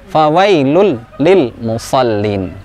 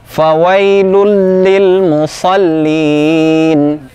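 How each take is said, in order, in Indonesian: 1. Frasa itu terputus-putus, tidak mengalir. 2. Frasa itu mengalir lancar tanpa terputus. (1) "tidak fawailul lil musallin. Kurang tepat" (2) "Tetap mengalir dalam bacaan kita"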